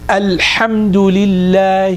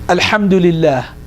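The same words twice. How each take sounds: First: The l sound is clear and held long. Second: The l sound is quick and cut short. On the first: The speaker calls it right. "So the lam has to be very clear here" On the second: The speaker calls it wrong. "We don't just say"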